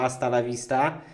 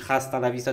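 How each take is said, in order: First: The initial h of hasta is silent. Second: The initial h of hasta is pronounced. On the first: The speaker calls it right. "tylko hasta la vista" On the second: The speaker calls it wrong. "nie mówisz hasta la vista"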